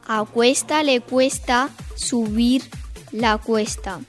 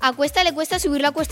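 First: It is spoken very slowly. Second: It is spoken quickly. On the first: "una muy lenta" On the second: "Ahora más rápido"

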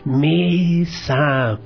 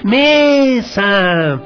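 First: The word is said even more softly. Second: The word is said even more loudly. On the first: "Ahora más bajito" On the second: "digamos con más fuerza"

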